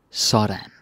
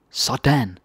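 First: Said in the usual way. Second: "Sådan" lifted up, a pleased there you go; higher "Sådan". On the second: Shown as a demonstration. Teacher showing a pleased, cheering Sådan. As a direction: cheer someone on. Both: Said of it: "So many different intonations".

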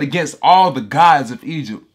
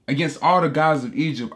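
First: Loud, declaring God's words; preacher voicing God over his congregation, booming; booming proclamation. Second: Said in the usual way. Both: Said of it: "he said".

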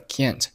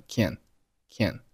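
First: Said in the usual way. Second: "can" as can't with no burst of T; "can", the clipped-off form of can't; unreleased final T. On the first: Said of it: "这儿的can't就读成了can". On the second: Shown as a demonstration. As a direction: stop "can" on the N, T left silent. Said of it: "并且can't结尾的t没有爆出来".

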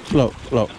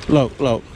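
The two takes are said the same way.

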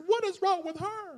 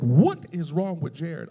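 First: Very high, squealed imitation of indignation; exaggerated, high-voiced offended comeback; mock upset retort. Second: Slow, measured mock reproach; lightly voiced church mother questioning someone; imitated reproach. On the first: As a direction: throw it back as a comic high-pitched protest. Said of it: "I was so upset". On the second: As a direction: ask it slowly, stressing each word, as a retold scolding. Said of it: "she said".

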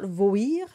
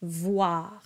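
First: Voir without the W glide, like voi; the wrong way: voir with no W. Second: Voir with a W glide and open ah; vwa voir. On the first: Coach shows the wrong voir. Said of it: "So it's not voir". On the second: Coach gives the right voir. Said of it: "it's voir". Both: Shown as a demonstration.

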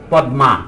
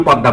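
First: পদ্মা read as written, with a clear d and m, "pod-ma"; spelling pronunciation. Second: পদ্মা said as in speech, with a doubled d and no m, "pod-da"; spoken pronunciation. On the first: Lecturer showing how পদ্মা is written, spelled out pod-ma. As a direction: sound out পদ্মা letter by letter, pod-ma. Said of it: "আমরা লেখার সময় লিখি". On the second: Lecturer showing how পদ্মা is actually said, pod-da. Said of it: "কিন্তু বলার সময় পদ্মা বলেন". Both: Shown as a demonstration.

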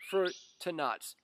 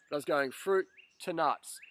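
First: "fruit to nuts" stretched out slowly, fruit stressed; slow emphasis. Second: Said in the usual way. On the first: Real, not acted. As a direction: drag out fruit to nuts word by word. Slowed emphatic repeat.

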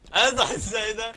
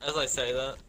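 First: High, slow shout of "As I say that"; mock dramatic shout. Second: Said in the usual way. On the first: Teammate yelling at his own jinx in the game, slow mock shout.

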